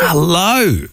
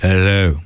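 First: The greeting sounds harsh and aggressive. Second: The greeting sounds softer and gentler.

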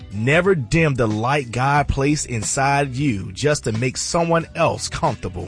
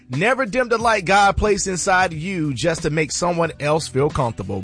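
First: It is said slowly and deliberately. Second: It is said at a normal pace.

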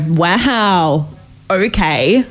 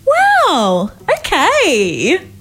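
First: It sounds let down and disappointed. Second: It sounds supportive and happy.

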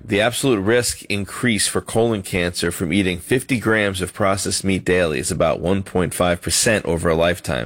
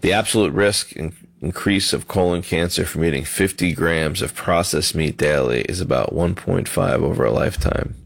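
First: It is said clearly and with conviction. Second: It is said muffled and mumbled.

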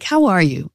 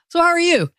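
First: It is asked in a sincere, caring tone. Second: It is asked in a casual, offhand tone.

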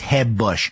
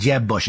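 First: Jeb starts with a soft, Spanish-style H sound. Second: Jeb starts with a hard English J.

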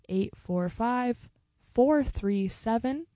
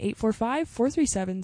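First: The number is said slowly. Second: The number is said quickly.

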